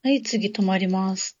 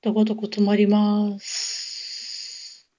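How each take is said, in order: First: The 'su' at the end is short. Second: The 'su' at the end is drawn out.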